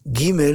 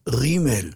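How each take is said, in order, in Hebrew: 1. העיצור הראשון הוא דגוש, ג סגורה. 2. העיצור הראשון הוא רפה, גרוני ומחוכך. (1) "ולא גימל זה דגוש" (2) "ראוי תמיד לומר, כמו שצריך, רימל"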